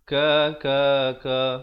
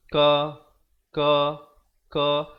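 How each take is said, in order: First: The syllables flow together without gaps. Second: The syllables are separated by short gaps. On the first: The speaker calls it right. "Kalau boleh biarlah bunyinya juga bersambung" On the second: The speaker calls it wrong. "Contohnya bacaan yang salah. ... Jadi kita biarkan ada gap di antara huruf ke huruf"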